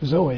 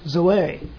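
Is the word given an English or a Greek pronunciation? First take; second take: English; Greek. First: The word has an English pronunciation. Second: The word has a Greek pronunciation.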